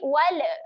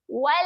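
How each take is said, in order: First: The final l bounces into an added vowel. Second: The final l stops cleanly with no bounce. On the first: The speaker calls it wrong. "Wala adalah bunyi yang kurang tepat" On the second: The speaker calls it right. "kemaskan makhrajnya"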